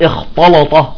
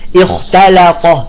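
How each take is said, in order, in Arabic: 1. التاء واللام تُفخَّمان. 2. التاء واللام تُرقَّقان. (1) "بعضهم يخرج التاء يخرجها طاء واللام يفخمها" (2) "يجب ان نرقق اللام والتاء"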